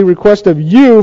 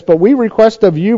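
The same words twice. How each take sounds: First: Slow, deliberate stress on "you"; weight each word, landing on "you"; emphatic YOU. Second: Said in the usual way. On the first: Shown as a demonstration. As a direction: draw out "request of you" for emphasis. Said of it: "very emphatically". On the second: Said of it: "very emphatic, these words".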